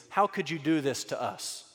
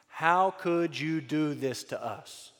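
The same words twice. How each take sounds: First: Said in the usual way. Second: Slow, weighty repeat of a mother's reproach; slow and deliberate. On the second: Acted. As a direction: draw out each word of the reproach. Line repeated slowly for weight.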